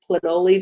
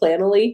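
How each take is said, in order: First: It is pronounced to rhyme with cannoli. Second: It is pronounced not rhyming with cannoli. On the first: "my team prefers Planoly just because it sounds like cannoli" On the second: "I say Planoly"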